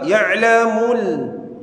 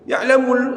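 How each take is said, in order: First: The final l is held and drawn out. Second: The final l is cut short and merged. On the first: The speaker calls it right. "Alif lam qamariyah harus ditarik" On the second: The speaker calls it wrong. "Ya'lamul salah"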